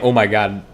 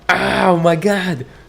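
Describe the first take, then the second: First: It is plain, without the laughing sound. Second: It is high-pitched, almost like laughing.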